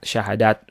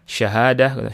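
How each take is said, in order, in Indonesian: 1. Kata ini diakhiri dengan bunyi T. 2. Kata ini diakhiri dengan bunyi H. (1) "tak marbutah yang dibaca ta" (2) "aslinya dalam bahasa Arabnya"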